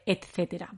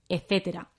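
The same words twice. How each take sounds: First: The middle t sound is clearly pronounced. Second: The middle t sound is left out. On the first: The speaker calls it right. "en lugar de etcétera" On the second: The speaker calls it wrong. "A veces no decimos la T, decimos etcétera"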